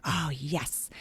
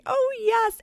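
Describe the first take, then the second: First: Said in the usual way. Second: Squealed high and loud with delight; a thrilled teacher's cry of joy; excited teacher. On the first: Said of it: "And I'm like". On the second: Retold or imitated. Teacher reacting to the books.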